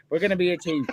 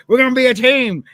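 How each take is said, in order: First: Said in the usual way. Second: Loud, higher hammed-up shout of the line; Stone Cold impression. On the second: Retelling Stone Cold rallying the team, loud mock shout. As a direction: yell it at the locker room. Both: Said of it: "he turned around and he goes".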